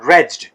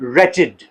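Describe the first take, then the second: First: The -ed ending is not a separate syllable. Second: The -ed ending is its own syllable. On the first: The speaker calls it wrong. "हम इसको mostly रेज्ड पढ़ते हैं" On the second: The speaker calls it right. "It is pronounced as wretched"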